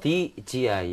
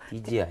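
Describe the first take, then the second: First: Each letter is separated by short breaks. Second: The letters run together without breaks. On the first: The speaker calls it right. "이렇게 좀 끊어 읽어주세요" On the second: The speaker calls it wrong. "이게 아니거든요"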